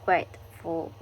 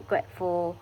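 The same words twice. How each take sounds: The two takes are said the same way.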